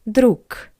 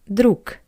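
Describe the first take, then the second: First: The word ends with a voiceless k sound. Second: The same.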